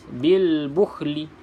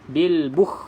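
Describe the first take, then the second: First: It ends with l followed by a vowel. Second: It ends without any l sound. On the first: "kita baca bunyi baris" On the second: "tak bunyi lam ni"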